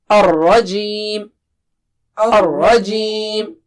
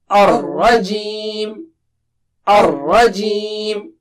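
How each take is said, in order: No difference in how they are said.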